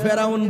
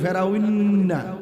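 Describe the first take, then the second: First: The final n is short and plain. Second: The final n is nasalized and lengthened. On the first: The speaker calls it wrong. "ফেরাউনকে কখনো ফেরাউন বলি না" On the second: The speaker calls it right. "ভালো করে গুন্না করে বলি"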